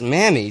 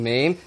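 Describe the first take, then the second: First: The word is said with two syllables. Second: The word is said with one syllable. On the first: "I call it Mammy" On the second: "you mean Mame?"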